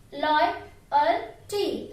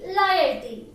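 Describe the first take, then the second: First: Loyalty drawn out slowly, syllable by syllable; slow model word. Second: Said in the usual way. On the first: Shown as a demonstration. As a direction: stretch Loyalty out for the class. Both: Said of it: "See how to pronounce that word?".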